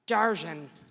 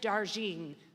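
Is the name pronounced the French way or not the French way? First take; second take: French; not French. First: The name is said with a French pronunciation. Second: The name is said without a French pronunciation. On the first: The speaker calls it right. "she told me to do it the French pronunciation" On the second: The speaker calls it wrong. "I did it wrong"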